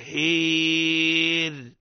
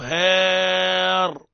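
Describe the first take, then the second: First: Fronted vowel toward 'ee' with a thin r. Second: Open 'aa' vowel with a heavy, velarized r. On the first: "إذن الصواب على شفا جرف هير أملت" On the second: "لما نقوله هار فخمناه، علاش؟ لأني ما ملتش"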